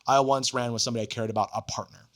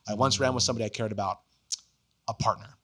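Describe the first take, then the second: First: It runs on with no marked pause before 'partner'. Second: It pauses before 'a partner', setting it apart.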